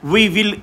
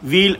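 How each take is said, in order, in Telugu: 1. రెండు పదాలూ పూర్తిగా అనబడతాయి. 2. రెండు పదాలు కలిసి ఒకే అక్షరంగా మారతాయి.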